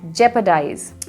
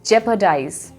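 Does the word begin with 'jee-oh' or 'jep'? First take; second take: jep; jep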